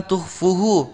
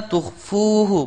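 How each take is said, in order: First: Tuhfuhu with a short quick 'fu'; dropped waw. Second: Tuhfuhu higher, with 'fuu' held long; long waw. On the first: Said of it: "Jangan menghilangkan huruf wawnya". (tuhfuhu dengan 'fu' pendek) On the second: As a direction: stretch the middle of tuhfuhu. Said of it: "maka dibaca panjang". (tuhfuhu dengan 'fu' panjang) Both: Shown as a demonstration.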